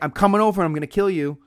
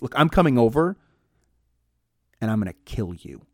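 First: It is said in one flat tone. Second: It is said with changing tones.

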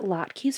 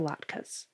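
First: The last syllable has a 'kee' sound. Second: The last syllable has a plain 'k' sound. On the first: "instead of a key sound" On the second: "like the other sound, like a k sound"

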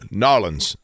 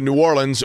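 First: The name is squeezed into two syllables. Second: The name is said with all its syllables.

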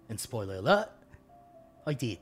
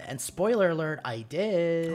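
First: It is read in a put-on Australian accent. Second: It is read in the speaker's normal accent.

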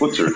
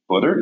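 First: It is said with an Irish accent. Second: It is said with an American accent. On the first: "instead of" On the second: "I've had to learn how to say in California"

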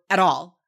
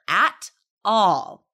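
First: The phrase is rushed through quickly. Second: The phrase is said slowly and loudly. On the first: The speaker calls it wrong. "Don't just rush through at all. We don't talk like that" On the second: The speaker calls it right. "we need to slow down and say those words louder"

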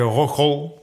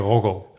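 First: The G is hard and rasping. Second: The G is soft and gently voiced. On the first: This is how outsiders say it. "met een harde G" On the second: This is how local people say it. "een zachte G hebt van nature"

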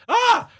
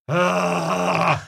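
First: It is a high, frightened scream. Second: It is a low, grunty noise.

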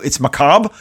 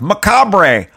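First: The final R is silent. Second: The final R is clearly sounded. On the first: The speaker calls it right. "why is the R silent and macabre?" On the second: The speaker calls it wrong. "when you're a kid, you're like macabre"

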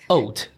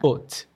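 First: The vowel is said with rounded lips. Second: The vowel is said flat and unrounded. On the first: The speaker calls it wrong. "Some people may say haute.Is it O, that round sound?" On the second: The speaker calls it right. "To make it flat, like haute"

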